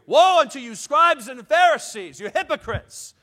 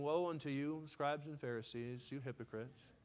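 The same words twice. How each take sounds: First: It is hollered loudly and forcefully. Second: It is said calmly and quietly.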